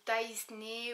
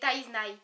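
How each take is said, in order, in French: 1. Le nom se prononce comme Taisney. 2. Le nom se prononce comme Taiznai. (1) "ou Taisney" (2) "C'est Taiznai"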